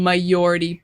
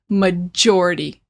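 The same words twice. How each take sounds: First: The middle consonant sounds like a soft Y. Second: The middle consonant is a strong J sound. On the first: The speaker calls it wrong. "You guys are saying it like it's a Y" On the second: The speaker calls it right. "the J is a lot stronger in English"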